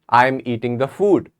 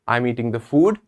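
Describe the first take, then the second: First: The voice falls at the end of the sentence. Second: The voice rises at the end of the sentence. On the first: It states a fact. "I can say it normally like a statement" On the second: It asks a question. "if you want to say it with question"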